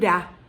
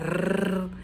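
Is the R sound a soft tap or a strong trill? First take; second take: soft tap; strong trill. First: The R is a soft, light tap. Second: The R is a strong trill at the front. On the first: "que é uma vibração mais suave" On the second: "a vibração da língua R, na frente"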